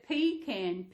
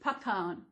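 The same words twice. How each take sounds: First: It is said with an Australian pronunciation. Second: It is said with an American pronunciation. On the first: "Well, they're pecan, P E C A N" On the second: "there's the pecan nuts were over there called pecan"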